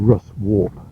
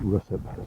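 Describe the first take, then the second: First: The second syllable is pronounced 'warp'. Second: The second syllable is reduced to 'up'. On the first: This is how the spelling reads. "it's spelt sort of Russ Warp" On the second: This is how everyone actually says it. "everybody calls it Russup"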